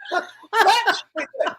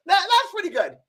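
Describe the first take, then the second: First: High, slow, hammed-up grudging praise; mock impressed Oprah. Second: Laughing mock Oprah. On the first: Imitating Oprah's reaction, high mock praise. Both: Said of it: "She goes".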